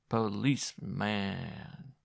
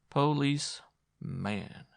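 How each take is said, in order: First: The word is bleated in a shaky, goat-like voice. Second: The word is split in two with a break. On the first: "She bleated it like a goat" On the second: "She broke the word in two"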